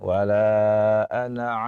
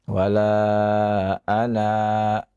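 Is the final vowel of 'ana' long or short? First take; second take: short; long. First: The final vowel of ana is cut short. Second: The final vowel of ana is held long. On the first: The reading continues without stopping. "baca pendek" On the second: The reading stops at this word. "dibaca dua harokat kalau kita wakafkan"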